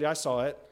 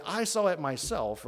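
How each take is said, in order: First: Said in the usual way. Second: "I saw it myself" with stress added on "myself"; emphatic "I saw it myself", hammering it home; insistent emphasis. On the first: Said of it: "If I just said". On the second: Shown as a demonstration. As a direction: insist on "I saw it myself" as first-hand witness. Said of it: "I'm, I'm really insistent".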